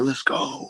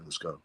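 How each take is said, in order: First: It is said excitedly, hyped up. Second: It is said calmly, low-key.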